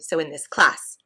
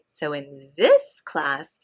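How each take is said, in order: First: The word 'this' carries no special stress. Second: The word 'this' carries strong contrastive stress. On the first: The speaker calls it wrong. "you cannot say" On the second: The speaker calls it right. "You need to say, ... because it is an implied comparison with other classes"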